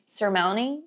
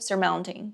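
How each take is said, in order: First: The T after the N is dropped. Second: The T after the N is pronounced. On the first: "no inglês mais americano você vai ouvir" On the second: "em inglês britânico"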